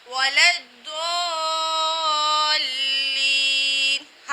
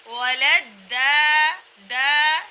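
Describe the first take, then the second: First: وَلَا الضَّالِّينَ chanted slowly with a thick, rounded "Doo"; heavy Dad. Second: وَلَا الدَّا with a light, unrounded "daa"; wrong thin dal. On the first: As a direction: hold the heavy ض very long in الضَّالِّينَ. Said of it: "یہاں ہم ضاد ادا کر رہے ہیں". (موٹے ضاد سے کھینچ کر تلاوت) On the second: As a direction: say الدَّا with a thin d in place of heavy ض. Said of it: "وہ غلط ہوگا". (ضاد کی جگہ باریک دا) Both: Shown as a demonstration.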